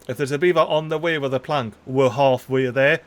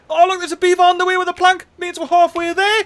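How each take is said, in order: First: Said in the usual way. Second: High, fast burst of delight; thrilled that the hope came true; quick high squeal of glee; excited. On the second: Real, not acted. Sees the beaver with plank.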